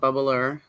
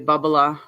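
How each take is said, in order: First: It is said in a general American accent. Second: It is said in a Boston accent. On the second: "We say"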